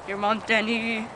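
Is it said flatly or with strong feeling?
flatly. It is said flatly, with little feeling.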